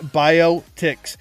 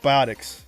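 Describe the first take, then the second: First: The word splits into bio and ticks. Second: The word is said as one blended word. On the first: The speaker calls it wrong. "Not biotics. If it was biotics, it'd be bio space ticks" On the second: The speaker calls it right. "It's biotics"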